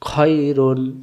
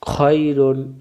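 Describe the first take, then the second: Both takes have the same delivery.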